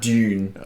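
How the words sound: It is said in a neutral, in-between accent.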